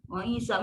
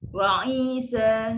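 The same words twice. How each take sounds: First: The vowel is cut short, one beat. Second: The vowel is held long, two beats. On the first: The speaker calls it wrong. "Macam tu cepatlah" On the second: The speaker calls it right. "ini memang panjang lah"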